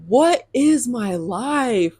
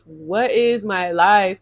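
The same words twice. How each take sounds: First: Slow disbelief. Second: Said in the usual way. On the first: Real, not acted.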